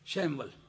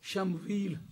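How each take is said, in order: First: The name ends with a short 'al' sound. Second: The name ends with a long 'eel' sound. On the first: This is how English speakers read it. "वो शैमवल करके पढ़ते हैं अंग्रेजी वाले" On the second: This is the Arabic-derived reading. "शमवील शमूईल करके पढ़ते हैं"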